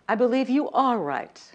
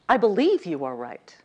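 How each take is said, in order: First: The stress falls on the word you. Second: The stress falls on the word believe.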